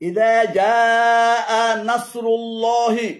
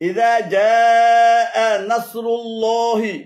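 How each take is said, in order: Both takes have the same delivery.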